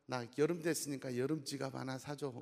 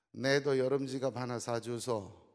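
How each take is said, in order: First: Said in the usual way. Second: Slow, blunt Gyeongsang dialect on 내도 and 사주소; Gyeongsang wife. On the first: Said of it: "서울 아내가". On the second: Retold or imitated. Gyeongsang wife asking her husband, in dialect. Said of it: "경상도 아내가".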